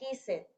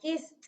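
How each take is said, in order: First: The ending is not said as a t sound. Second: The ending is said as a t sound. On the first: The speaker calls it wrong. "no kissed" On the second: The speaker calls it right. "va a sonar kissed"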